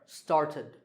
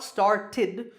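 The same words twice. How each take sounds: First: The final -ed ending is said softly. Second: The final -ed ending is said strongly. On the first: The speaker calls it right. "but it's a little softer" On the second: The speaker calls it wrong. "It's not started"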